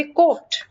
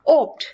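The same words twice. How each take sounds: First: कोप्ट run together as one syllable, the wrong way; wrong pronunciation. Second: ओप्ट said apart after a pause, a separate louder syllable; correct pronunciation. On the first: Teacher shows the wrong reading of co-opt, as one run-together word. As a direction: say कोप्ट fused like a single word. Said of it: "अगर hyphen यहाँ पे नहीं होता तो इसको हम pronounce करते". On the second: Teacher shows the correct co-opt, second part said apart and louder. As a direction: say ओप्ट on its own, split cleanly from को. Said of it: "इस तरह से इसकी प्रोनाउंसिएशन है".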